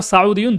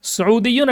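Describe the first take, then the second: First: সাউদিয়ুন with "sau" first syllable; second accepted variant. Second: সৌদিয়ুন with u vowels, "su-udiyun"; first accepted variant. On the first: Teacher offering two accepted forms, "saudiyun" pronunciation. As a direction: say সাউদিয়ুন starting "sa-u". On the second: Teacher offering two accepted forms, "su-udiyun" pronunciation. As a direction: say সৌদিয়ুন starting "su-u". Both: Shown as a demonstration. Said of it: "দুইটি হতে পারে".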